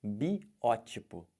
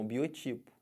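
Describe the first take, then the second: First: "Biótipo" very slow, stress on BI-Ó with open ó; slow correct biótipo. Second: "Biotipo" as people say it, stress on TI; wrong biotipo. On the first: Teacher shows the correct form to students, very slowly. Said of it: "Olha como é que fala isso". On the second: Teacher imitates the common mistake, stress on TI. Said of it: "Mas tá errado". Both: Shown as a demonstration.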